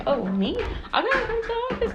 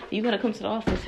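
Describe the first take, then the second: First: Much higher, loud mock disbelief; disbelieving. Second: Said in the usual way. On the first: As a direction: squeak it out like you can't believe it. She reacts to being summoned.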